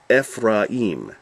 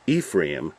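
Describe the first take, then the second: First: "Ephraim" as ef-rah-EEM, drawn out; Hebrew-style "Ephraim", long final "eem"; Hebrew pronunciation. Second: "Ephraim" as EE-free-um; anglicised "Ephraim", stressed on the opening "EE"; English pronunciation. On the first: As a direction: slowly sound out "Ephraim" with short "eh" and open "ah". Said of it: "So instead of". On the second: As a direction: say "Ephraim" the English way, long "ee" first. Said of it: "like as we say". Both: Shown as a demonstration.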